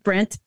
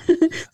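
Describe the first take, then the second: First: The name ends with a clear T sound. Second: The name ends without any T sound.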